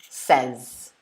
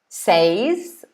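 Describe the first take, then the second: First: The word is said with a shorter sound. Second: The word is said with a longer sound. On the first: "it seems quicker to say" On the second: "we pronounce it two ways"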